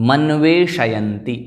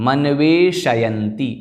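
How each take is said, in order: The two takes are said the same way.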